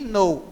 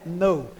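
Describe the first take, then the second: First: The word begins with a hard K sound. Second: The word begins with no K sound. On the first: The speaker calls it wrong. "não é que know" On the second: The speaker calls it right. "O K aí é mudo"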